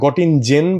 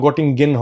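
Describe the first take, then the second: First: The last syllable starts with a soft j sound. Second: The last syllable starts with a hard g sound. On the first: The speaker calls it wrong. "মানে গটিং জেন বলে" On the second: The speaker calls it right. "কিন্তু গটিং গেন হবে কারণ জার্মান ভাষা"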